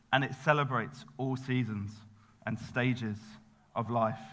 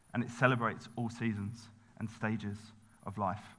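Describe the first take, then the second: The two takes are said the same way.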